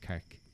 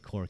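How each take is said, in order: First: The vowel sounds like the one in 'car'. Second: The vowel sounds like the one in 'core'. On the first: "He calls it Cark" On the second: "I call it Cork"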